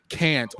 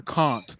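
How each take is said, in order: First: Said in the usual way. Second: "can't" with a long broad ah, like cahn't; mock British "can't" with the open ah vowel. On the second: Shown as a demonstration. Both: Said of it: "I would know if I went".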